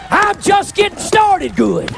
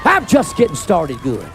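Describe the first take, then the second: First: High, slow, drawn-out holler; preacher's shout. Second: Slow, low-pitched preacher's declaration; lowered repeat. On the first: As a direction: holler it high and stretch each word. Preacher's climax, then repeated low. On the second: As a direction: drop the pitch low and take it slowly. Same line repeated much lower. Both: Real, not acted.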